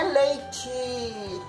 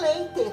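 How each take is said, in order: First: The final t sounds like a 'ch'. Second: The final t is a plain t sound. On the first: The speaker calls it wrong. "não é leite" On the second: The speaker calls it right. "o certo é leite"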